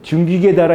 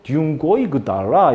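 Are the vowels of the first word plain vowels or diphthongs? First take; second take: plain vowels; diphthongs. First: The first word is said with plain vowels. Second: The first word is said with a diphthong. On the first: This is the modern reading. "지금은 둔기계 달아 이렇게 읽으면 되지만은" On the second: This is the Middle Korean reading. "그 당시는 이게 이중모음이었거든요"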